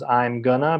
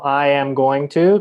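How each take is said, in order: First: I am is contracted; going to becomes gonna. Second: Every word is said fully and separately. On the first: "becomes I'm gonna" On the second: "So I am going to"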